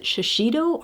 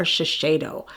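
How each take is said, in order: First: Shiseido with "shee" in the middle, shuh-SHEE-doh; alternate pronunciation. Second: Shiseido with "shay" in the middle, shuh-SHAY-doh; alternate pronunciation. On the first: Vlogger unsure of the brand name, Shiseido said shuh-SHEE-doh. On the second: Vlogger offering a second guess, Shiseido said shuh-SHAY-doh. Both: Shown as a demonstration. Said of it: "I hope I'm pronouncing that".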